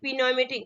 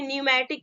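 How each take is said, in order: First: The word starts with a sounded p. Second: The word starts with n, p silent. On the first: The speaker calls it wrong. "बहुत लोग क्या पढ़ते हैं" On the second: The speaker calls it right. "इसको क्या पढ़ेंगे, न्यूमैटिक पढ़ेंगे"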